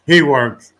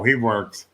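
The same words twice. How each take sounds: First: "he" punched out loud, then "works" falls; stress on HE. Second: Said in the usual way. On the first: Shown as a demonstration. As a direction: lean hard on the word "he".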